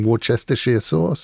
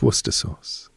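First: The place name is said in full, as spelled. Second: The place name is said in a shortened form. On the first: The speaker calls it wrong. "people say" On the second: The speaker calls it right. "It's Worcester sauce"

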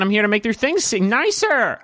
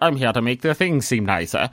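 First: It is said in an American accent. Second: It is said in a non-American butler accent.

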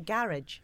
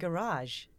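First: It is pronounced with a British accent. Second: It is pronounced with an American accent. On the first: "We see garage" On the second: "I've been seeing Garage. Which is weird for me"

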